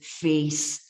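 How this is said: It is said with a Scottish vowel. "he says face"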